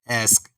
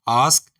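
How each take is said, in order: First: It is said with an American accent. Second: It is said with a British accent.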